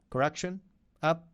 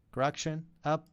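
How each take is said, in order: Both takes have the same delivery.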